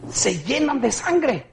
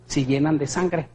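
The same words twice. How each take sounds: First: "Se llenan de sangre" slower and higher, weight on "sangre"; slow stressed "sangre"; slow emphatic repeat. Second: Said in the usual way. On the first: Shown as a demonstration. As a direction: drag out "sangre" to make it sink in. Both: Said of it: "repeated for emphasis".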